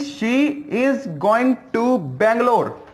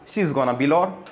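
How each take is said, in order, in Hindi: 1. Going to और Bangalore पूरे बोले गए हैं। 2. यह gonna बन जाता है और Bangalore छोटा करके बोला गया है। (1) "मैंने बोला कि" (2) "शॉर्ट फॉर्म में बोल दिया"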